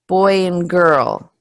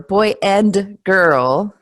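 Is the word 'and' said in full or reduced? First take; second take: reduced; full. First: The word 'and' shrinks to a short 'n'. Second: The word 'and' is said in full. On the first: The speaker calls it right. "the and becomes mm" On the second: The speaker calls it wrong. "it doesn't sound very smooth"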